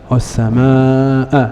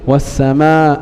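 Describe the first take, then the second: First: The long vowel is held long. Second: The long vowel is cut short. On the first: The speaker calls it right. "لا" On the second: The speaker calls it wrong. "وقصر ما يجب مده"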